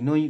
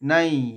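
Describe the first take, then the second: First: The vowel sounds like 'oi'. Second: The vowel sounds like 'ai'. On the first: The speaker calls it wrong. "নই নৈব বলবো না" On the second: The speaker calls it right. "নাই আই উচ্চারণ হবে"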